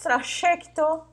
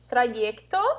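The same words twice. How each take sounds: First: The y sounds like an sh consonant. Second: The y sounds like the vowel ee. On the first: "como dizem os argentinos" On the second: "Pode ter o som do I"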